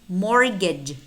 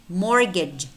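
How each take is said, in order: The two takes are said the same way.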